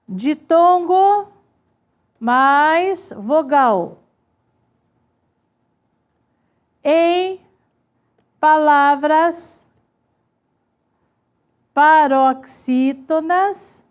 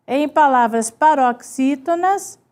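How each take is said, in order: First: Word by word with long pauses; drawn-out words, widely spaced; slow dictation. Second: Said in the usual way. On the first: Shown as a demonstration. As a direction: dictate slowly while writing it out. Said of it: "vou colocando assim".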